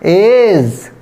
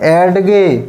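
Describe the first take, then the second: First: It is said as one syllable. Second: It is said as two syllables. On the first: The speaker calls it right. "Right पढ़ेंगे" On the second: The speaker calls it wrong. "Wrong पढ़ेंगे"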